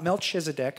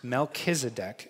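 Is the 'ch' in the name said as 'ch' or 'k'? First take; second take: ch; k. First: The middle consonant sounds like 'ch' in church. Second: The middle consonant sounds like a hard 'k'. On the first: The speaker calls it wrong. "not Melchizedek, I know it's C-H" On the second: The speaker calls it right. "but it's Melchizedek"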